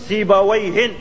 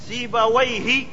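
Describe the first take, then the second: First: The word ends with an added n sound. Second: The word ends without an added n sound. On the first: Any great grammar scholar is meant. "كل نحوي عالم سيبويه يطلق عليه سيبويه" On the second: One particular well-known grammarian is meant. "بغير تنوين"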